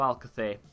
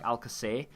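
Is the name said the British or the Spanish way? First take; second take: Spanish; British. First: The name is said with a Spanish-style pronunciation. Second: The name is said with a British-style pronunciation. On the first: The speaker calls it right. "that is the correct way to say his name" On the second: The speaker calls it wrong. "the way that um, the British people say it"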